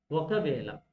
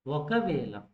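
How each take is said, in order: Both takes have the same delivery.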